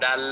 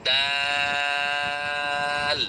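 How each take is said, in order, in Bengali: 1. স্বরধ্বনিটি ছোট, টেনে বলা হয়নি। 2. স্বরধ্বনিটি কয়েক মাত্রা ধরে টেনে বলা হয়েছে। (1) "অনেকে আবার না বুঝে বলে দাল" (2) "তিন আলিফ টান দিয়ে বলেন দাল"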